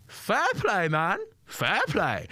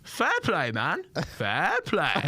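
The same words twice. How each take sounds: First: Much higher impersonation, falling on fair play; James Acaster impression on request. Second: Much higher impersonation, falling on fair play; James Acaster impression. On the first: Comedian asks for it again, heckler repeats in high mimicry. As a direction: do the comic's voice again, high and dry. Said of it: "Do that one more time". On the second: Heckler answering the comedian in his own voice, high mimicry. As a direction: hit the comic's voice high and dry. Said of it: "what I would imagine James Acaster would".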